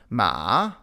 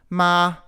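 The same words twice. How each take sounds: First: The pitch dips down and then rises. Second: The pitch stays high and level. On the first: "the falling then rising tone" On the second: "the high tone"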